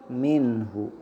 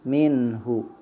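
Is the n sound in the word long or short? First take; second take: short; short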